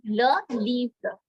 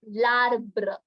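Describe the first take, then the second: First: The article and noun are said as separate words. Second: The article and noun merge into one word. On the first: The speaker calls it wrong. "we were pronouncing two different words" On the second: The speaker calls it right. "since it's one word, you have to pronounce it as larbre"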